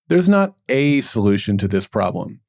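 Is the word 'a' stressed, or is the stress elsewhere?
a. The stress falls on the word 'a'. There is more than one solution. The speaker calls it right.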